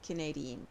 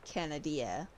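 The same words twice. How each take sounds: First: "Canadian" as kuh-NAY-dee-un; as one word. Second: "Canadia" as CAN-uh-DEE-uh; split into two words. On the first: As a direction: run "Canadian" together, stressing NAY. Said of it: "say it like one word". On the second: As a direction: sound "Canadia" out in two parts, stressing DEE. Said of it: "like it's two different words". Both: Shown as a demonstration.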